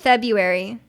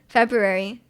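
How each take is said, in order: First: The word is said with one letter dropped. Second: The word is said with every letter sounded. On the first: The speaker calls it right. "It's February" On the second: The speaker calls it wrong. "No one says February"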